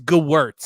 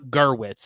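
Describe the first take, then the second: First: The r sound comes in the second syllable. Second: The r sound comes in the first syllable. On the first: The speaker calls it right. "it is Gewirtz" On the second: The speaker calls it wrong. "It is not Gerwitz"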